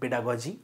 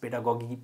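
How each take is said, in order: First: The last consonant is a j sound. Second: The last consonant is a hard g sound. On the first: "আমি পেডাগজি বলি, পেডাগজি বলাটাই better" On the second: "অনেকে পেডাগগি উচ্চারণ করে"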